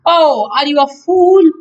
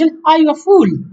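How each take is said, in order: First: It is said in a drawn-out American way. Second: It is said in a short British way.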